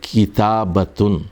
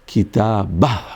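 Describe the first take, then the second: First: The word ends with a full 'tun' syllable. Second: The word ends with a breathy 'h' sound.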